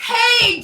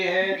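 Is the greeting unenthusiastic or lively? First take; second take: lively; unenthusiastic. First: It is said brightly, with lively energy. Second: It is said flatly, without enthusiasm.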